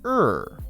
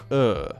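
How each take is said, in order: First: A curled R sound in an American accent. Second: A flat R sound in a British accent. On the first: "the American R sound, which is er" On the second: "The British English R sound is more flat"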